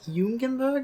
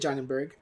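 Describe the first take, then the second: First: The name is said with a German pronunciation. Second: The name is said with an American pronunciation.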